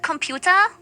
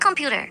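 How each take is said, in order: First: The word is pronounced with German sounds. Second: The word is pronounced with English sounds.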